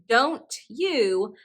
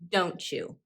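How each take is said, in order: First: The t and y sounds stay separate. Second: The t and y blend into ch. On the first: "instead of saying don't you" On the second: "I say don't you. It's easier to say"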